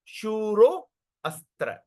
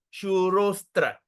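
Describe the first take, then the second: First: Shuro astra slowly, with a break and the A sounded; broken into two words. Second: Shurostra slowly, joined with the A silent; combined into one word. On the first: Teacher breaks the word for students, two-word demo. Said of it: "when you break the word". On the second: Teacher combines the word for students, one-word demo. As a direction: join shuro straight onto stra, no break. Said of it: "when we combine the word". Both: Shown as a demonstration.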